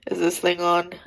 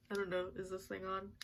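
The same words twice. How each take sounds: First: Sudden loud mock mic check; loud, playful is this thing on; joking loud check. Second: Said in the usual way. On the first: Real, not acted. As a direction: boom it out like testing a mic.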